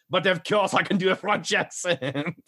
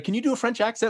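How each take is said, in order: First: Put-on high, theatrical French accent; hammed-up French accent. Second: Said in the usual way. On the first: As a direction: answer in a showy French accent. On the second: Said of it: "And he's like".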